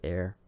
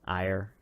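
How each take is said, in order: First: The name rhymes with the word care. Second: The name rhymes with the word fire. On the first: "it seems reasonable to pronounce it Air"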